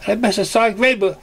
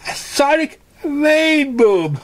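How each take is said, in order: First: High, fast griping pony voice; rushed complaint. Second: Very high drawn-out wail on rainbow; wailing repeat. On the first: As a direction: blurt it out quickly. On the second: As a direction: stretch it out in full despair. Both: Acted. Same words repeated.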